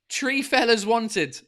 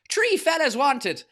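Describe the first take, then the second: First: It is said in the speaker's ordinary accent. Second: It is said in an Irish accent. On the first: The speaker calls it wrong. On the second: The speaker calls it right.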